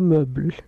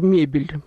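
First: It is said in the old aristocratic manner. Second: It is said in the modern Russian manner. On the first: This is how aristocrats said it in the past. "Тогда говорили мебель" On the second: This is how people say it today. "мы их произносим на русский манер"

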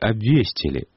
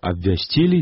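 First: The stress is on the second syllable. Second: The stress is on the third syllable. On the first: The speaker calls it wrong. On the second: The speaker calls it right.

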